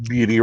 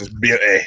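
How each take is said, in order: First: Said in the usual way. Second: Badly faked Australian accent; terrible Australian accent. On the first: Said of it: "I should say that in Australian voice". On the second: Shown as a demonstration. Host redoing his word for fun, bad Australian accent. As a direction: have a clumsy go at an Australian accent. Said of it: "That's a terrible Australian voice".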